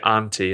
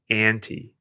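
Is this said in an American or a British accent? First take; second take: British; American. First: It is said with a British-style vowel. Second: It is said with an American-style vowel. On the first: "In the same way we say auntie" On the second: "and they say auntie"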